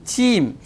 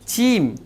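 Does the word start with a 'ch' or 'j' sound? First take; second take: ch; ch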